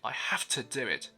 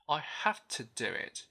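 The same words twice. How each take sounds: First: The word 'to' is pushed and stressed. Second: The word 'to' is light and reduced. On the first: The speaker calls it wrong. "we tend to get overexcited" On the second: The speaker calls it right. "we use the schwa sound to replace u"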